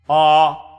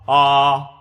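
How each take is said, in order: Both takes have the same delivery.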